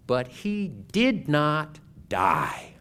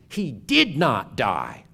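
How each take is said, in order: First: It is said calmly, without heat. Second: It is said loudly with strong emphasis.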